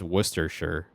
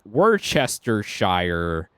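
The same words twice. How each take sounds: First: The word is said in a shortened, reduced form. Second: Every syllable of the word is pronounced in full. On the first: "for me it's" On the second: "the full on like"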